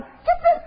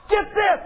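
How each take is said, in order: First: "get this" leaps far higher in an excited squeal. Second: Said in the usual way. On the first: Real, not acted.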